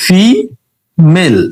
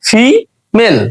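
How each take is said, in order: First: female split slowly into syllables, fi and mel. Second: female said whole and smooth as one word; whole word again. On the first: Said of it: "যদি শব্দকে ভাঙি". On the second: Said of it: "ভাঙি female". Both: Shown as a demonstration.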